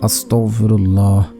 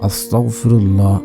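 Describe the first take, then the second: Both takes have the same delivery.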